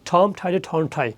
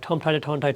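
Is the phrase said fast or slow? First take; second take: slow; fast. First: The phrase is said slowly. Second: The phrase is said faster. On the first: "ধীরে ধীরে practice করা, আস্তে আস্তে করে" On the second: "এটাকে আরেকটু স্পিড বাড়ানো"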